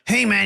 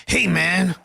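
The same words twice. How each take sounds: First: Higher, louder mock Goggins greeting; hammed-up Goggins "hey man"; Goggins impression. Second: Loud gruff greeting as Goggins; hammed-up Goggins "hey man"; Goggins impression. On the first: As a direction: push it out like Goggins. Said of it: "he talks a bit like". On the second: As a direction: bark it like David Goggins. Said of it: "That's my Goggins impression".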